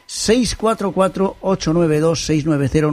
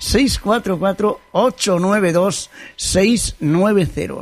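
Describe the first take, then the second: First: The number is said at a quick pace. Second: The number is said at a slow pace.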